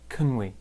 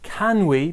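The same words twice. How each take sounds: First: The words are reduced to weak, linked forms. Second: Both words are said in full, strong forms. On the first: "more like" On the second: "So can we becomes"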